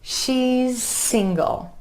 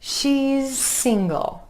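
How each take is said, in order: No difference in how they are said.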